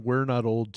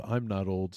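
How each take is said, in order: First: We're stressed, low. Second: I'm stressed, softer and low. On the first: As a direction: lean on we're. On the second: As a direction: lean on I'm. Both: Shown as a demonstration. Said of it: "I like how you went from".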